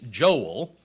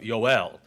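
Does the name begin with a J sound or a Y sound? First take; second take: J sound; Y sound. First: The name begins with a J sound. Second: The name begins with a Y sound. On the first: The speaker calls it wrong. "in the Hebrew there is no J sound" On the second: The speaker calls it right. "it's a Y sound. So it would be more of Yoel"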